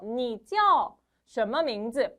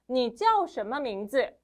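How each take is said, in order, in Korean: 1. 이 표현은 보통 속도로 말했어요. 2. 이 표현은 빠른 속도로 말했어요. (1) "한 번 더" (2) "빠르게"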